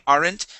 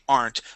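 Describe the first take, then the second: First: The word is said with two syllables. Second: The word is said with one syllable. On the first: "pronouncing that E and saying aren't" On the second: "we do say aren't most of the time"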